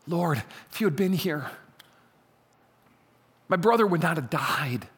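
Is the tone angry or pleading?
pleading. It is said in a pleading, imploring tone.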